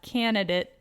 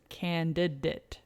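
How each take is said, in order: First: The first D sound is dropped. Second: The first D sound is clearly pronounced. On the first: The speaker calls it wrong. "It's not candidate" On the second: The speaker calls it right. "it's candidate. Lots of D's in that one"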